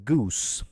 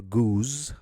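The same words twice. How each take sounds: First: The final consonant is voiceless like s. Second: The final consonant is voiced like z. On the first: The speaker calls it right. "rather, it's a goose" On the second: The speaker calls it wrong. "they're not geese or goose"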